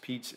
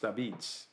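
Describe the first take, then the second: First: The word starts with a 'p' sound. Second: The word starts with an 'a' vowel. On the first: This is the usual pronunciation outside New Haven. "pizza is not pronounced pizza in New Haven" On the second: This is the local pronunciation in New Haven. "It's pronounced Abitz, which is how they would pronounce it in southern Italy"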